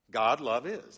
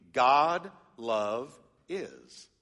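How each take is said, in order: First: Said in the usual way. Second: "God love is" stretched very slowly, each word apart; slow literal reading. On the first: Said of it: "That's how it reads in the Greek". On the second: Shown as a demonstration. Pastor shows the literal Greek order, very slow. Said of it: "it would be".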